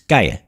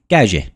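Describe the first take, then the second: First: The double L has the standard Spanish sound. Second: The double L sounds like a soft J. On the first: This is how it is said in Spain. "in Spanish uh, for road is calle" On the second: This is how it is said in Gibraltar. "in Gibraltar they pronounce it as a J, almost a soft J"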